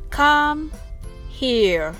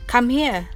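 First: The phrase is said slowly. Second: The phrase is said quickly. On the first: "まずはゆっくり" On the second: "次は早く"

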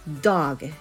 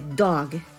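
First: The vowel is drawn out long and smooth. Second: The vowel is short and cut off abruptly. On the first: The speaker calls it right. "母音を長めに発音する" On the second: The speaker calls it wrong. "一つの単母音は短く切りがち"

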